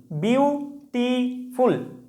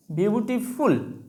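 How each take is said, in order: First: beautiful slowly split into বিউ, টি, ফুল; syllable by syllable. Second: Said in the usual way. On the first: Shown as a demonstration. Teacher counts syllables for students, saying beautiful syllable by syllable. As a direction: break beautiful into three drawn-out syllables. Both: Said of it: "তিনটা syllable আছে".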